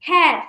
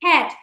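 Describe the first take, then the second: First: হ্যাট punched louder as one beat; one syllable demo. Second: হ্যাট short single beat; one syllable demo. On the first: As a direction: hit হ্যাট once, firmly. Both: Shown as a demonstration. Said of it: "একবারই উচ্চারণ করতে পারি".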